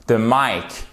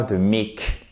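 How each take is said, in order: First: "mic" pronounced like "Mike"; "mic" rhyming with "bike", falling; correct English "mic". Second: "mic" said like French "mique"; French-style wrong "mic". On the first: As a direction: say "mic" with an eye diphthong. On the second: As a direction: say "mic" with an ee vowel, rhyming with "seek". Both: Shown as a demonstration. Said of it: "On ne dit pas the mic".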